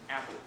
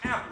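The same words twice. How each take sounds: First: The word is said at a calm, normal volume. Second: The word is yelled loudly with high energy.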